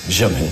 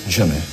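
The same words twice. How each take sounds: The two takes are said the same way.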